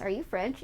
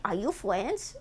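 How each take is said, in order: First: Said in the usual way. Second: Silly mock French accent with softened R. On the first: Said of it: "many came and asked". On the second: Streamer imitating random callers, mock French accent. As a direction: ask it in a babyish fake French accent. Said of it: "People call you randomly and say".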